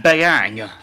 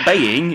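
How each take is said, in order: First: The second syllable has an 'ang' sound. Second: The second syllable has an 'ing' sound. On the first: The speaker calls it right. "it's Beiyang" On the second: The speaker calls it wrong. "it's not Beiying"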